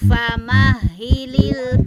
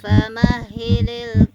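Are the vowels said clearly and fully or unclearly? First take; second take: clearly; unclearly. First: The vowels are said clearly and fully. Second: The vowels are said unclearly and incompletely. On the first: The speaker calls it right. "tetapi harus sempurna" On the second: The speaker calls it wrong. "nggak nggak sempurna"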